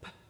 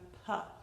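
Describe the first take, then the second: First: The consonant is said alone with no vowel. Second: The consonant is followed by an added uh sound. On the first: The speaker calls it right. "It's a p" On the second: The speaker calls it wrong. "not a p"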